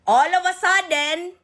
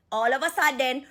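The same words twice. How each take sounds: First: "All of a sudden" louder and drawn out, "of" lifted high; slow, loud, rising "All of a sudden"; emphatic repeat. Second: Said in the usual way. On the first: Real, not acted.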